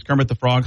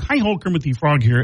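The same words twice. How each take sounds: First: Said in the usual way. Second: Puppet frog's chirpy greeting; bright felt-frog hello; Kermit the Frog. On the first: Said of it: "There's two voices I use". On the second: Retold or imitated.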